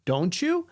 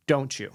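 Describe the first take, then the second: First: "Don't you" rising at the end; questioning tonality. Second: "don't you" with a falling end; command tonality. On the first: Trainer contrasting two tones for listeners, questioning rise on "Don't you". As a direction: ask "Don't you" with an upturn. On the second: Trainer contrasting two tones for listeners, commanding fall on "don't you". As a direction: bring "don't you" down firmly, as a statement. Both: Shown as a demonstration. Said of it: "Listen to the difference between those".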